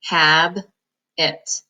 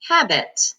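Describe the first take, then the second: First: "Hab-it" split into two syllables; "Hab-it" broken at the b; sounded out. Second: "Habit" blended smoothly, falling; "Habit" said as one word with a falling end. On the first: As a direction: read "Hab-it" in two separate chunks. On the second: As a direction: join the syllables into "Habit". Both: Shown as a demonstration. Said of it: "Now you can read this word".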